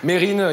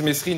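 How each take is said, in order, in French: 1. Le S dans le nom est muet. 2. Le S dans le nom se prononce. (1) "c'est comme Mérine" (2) "il voulait pas qu'on dise Mesrine"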